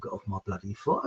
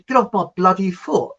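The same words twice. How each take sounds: First: Said in the usual way. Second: Mock-irritated, louder exclamation; imitated cross complaint; annoyed retort. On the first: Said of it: "never heard a record called". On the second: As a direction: snap it like a trodden-on dance partner. Friend snapping, mistaken for a song title.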